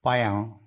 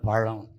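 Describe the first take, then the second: First: The middle consonant is a plain y sound. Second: The middle consonant is a retroflex zh sound. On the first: The speaker calls it wrong. "இந்த நாக்கு அறுத்துடணும்" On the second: The speaker calls it right. "பழம்னு சொல்லுங்க, தமிழ்ல அழகான பழம்"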